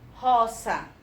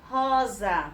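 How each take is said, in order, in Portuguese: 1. A consoante do meio é um som de S, sibilante. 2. A consoante do meio é um som de Z, com vibração. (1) "ela não vai ser roça" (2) "Vai ser rosa. Porque no meio de duas vogais tem uma letrinha S"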